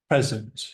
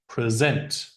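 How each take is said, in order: First: The stress is on the first syllable. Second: The stress is on the second syllable. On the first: It is used as a noun. "The noun" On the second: It is used as a verb. "Second syllable is the verb"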